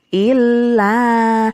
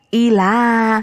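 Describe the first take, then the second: First: The l is held long before the vowel. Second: The l is short and not held. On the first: The speaker calls it right. "Harusnya kan ila" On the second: The speaker calls it wrong. "kalau anak-anak kelas dua itu ketika membaca itu begini"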